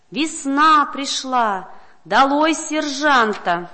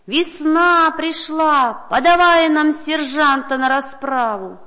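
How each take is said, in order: First: Slow, loud crowd chant; crowd shouting. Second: Slow, loud, higher crowd roar; crowd shouting. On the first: Townsfolk shouting to the whole town, loud slow chant. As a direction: call it out like a rejoicing crowd. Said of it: "и все кричат". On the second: Crowd demanding the sergeant from the governor, loud slow roar. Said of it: "кричат". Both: A narrator's reading.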